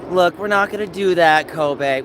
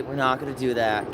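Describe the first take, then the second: First: Louder, higher no-nonsense warning; firm scold. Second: Said in the usual way. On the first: Real, not acted. Owner scolding dog Kobe, loud and firm. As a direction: stop the dog with a raised voice.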